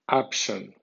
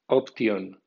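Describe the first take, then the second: First: It is read with English sounds and stress. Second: It is read with Spanish letter sounds. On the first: "en pronunciación inglesa" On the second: "como si fuera española"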